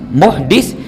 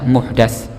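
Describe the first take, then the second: First: The last syllable has an 'i' vowel. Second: The last syllable has an 'a' vowel. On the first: It refers to a person who commits a crime. "bisa dibaca muhdis" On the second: It refers to a newly invented religious practice. "bisa dibaca muhdas"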